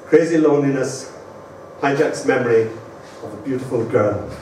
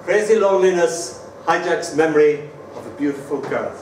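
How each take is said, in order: First: Put-on Crazy loneliness, hijacks memory, of a beautiful girl, each phrase set apart and falling lower; title with pauses. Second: Said in the usual way. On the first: Shown as a demonstration. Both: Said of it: "So this is called".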